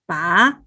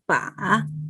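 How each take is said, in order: First: The pitch rises from middle to high. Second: The pitch dips down and then rises. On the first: "Second tone is rising" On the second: "Third tone is fall down and rising"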